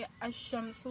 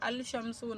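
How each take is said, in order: First: The l disappears and the sh is doubled. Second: The l sound is pronounced before sh. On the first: The speaker calls it right. "बल्कि अश शमसु यानी सूरज" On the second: The speaker calls it wrong. "ये अल शमसु नहीं होगा"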